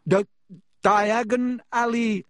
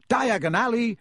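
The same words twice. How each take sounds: First: Higher, louder, slow, choked on ash; coughing. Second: Higher and louder, called into the fire; shouted. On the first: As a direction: force the words out through a cough. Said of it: "he coughed". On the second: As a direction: call out the place name boldly. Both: A narrator's reading.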